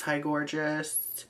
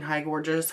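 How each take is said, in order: First: Hi gorgeous stretched out slowly, mock flirty; slow drawn-out hi gorgeous. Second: Said in the usual way. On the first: Real, not acted. Replying to a flirty follower, slow mock flirtation. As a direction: drawl hi gorgeous back teasingly.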